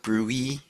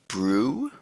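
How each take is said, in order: First: The acronym is said as two syllables. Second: The acronym is said as one syllable. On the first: Some other people say it this way. "some people call it brewy" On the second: This is the speaker's own choice. "I'm going to call it brew"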